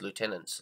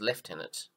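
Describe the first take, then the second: First: The first syllable sounds like 'loo'. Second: The first syllable sounds like 'lef'. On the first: This is how Americans say it. "we don't pronounce this as lieutenants like they do in America" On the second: This is how the British and Australians say it. "I believe we follow the British uh, pronunciation"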